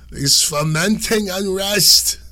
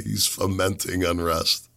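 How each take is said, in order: First: Put-on high, loud, drawn-out old Italian lady accent. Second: Said in the usual way. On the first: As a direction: stretch it out slowly like an indignant old Italian lady, accent and all. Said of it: "that was my old Italian lady accent".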